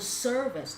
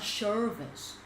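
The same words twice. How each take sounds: First: The word begins with a clear s sound. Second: The word begins with an sh sound. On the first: The speaker calls it right. "So service" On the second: The speaker calls it wrong. "not service"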